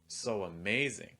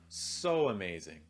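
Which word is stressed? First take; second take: amazing; so. First: The stress falls on the word amazing. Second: The stress falls on the word so. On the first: "second time stressing amazing" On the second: "the first time stressing so"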